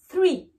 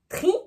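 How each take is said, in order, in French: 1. Le mot commence par un son th. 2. Le mot commence par un t simple. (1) "dites bien three" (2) "ne dites pas tri"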